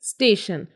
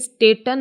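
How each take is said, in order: First: The middle consonant is an sh sound. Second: The middle consonant is a t sound. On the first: The speaker calls it right. "It's स्टेशन" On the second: The speaker calls it wrong. "ये स्टेटन नहीं है"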